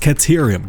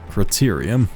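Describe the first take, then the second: First: It is pronounced with 'cat' at the start. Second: It is pronounced with 'crit' at the start. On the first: The speaker calls it right. "it's Caterium" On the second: The speaker calls it wrong. "That's not"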